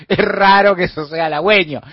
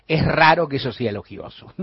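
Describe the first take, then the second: First: Laughing. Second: Said in the usual way. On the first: Real, not acted. Repite la frase riéndose.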